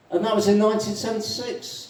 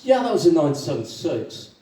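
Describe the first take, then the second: First: High-pitched, chatty addition; animated Irishman. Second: Mildly animated echo; agree, settling down from the other's pitch; lightly voiced agreement. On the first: Acted. Irishman adding the year for a fellow drinker, animated. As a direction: pitch it up as a new revelation. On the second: Second Irishman confirming the year, lightly acted.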